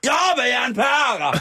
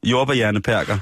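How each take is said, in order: First: Very high mock yell; imitated shouting. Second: Said in the usual way. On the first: Host re-enacting man shouting at police, high mock yell. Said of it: "reagerede han ved at råbe".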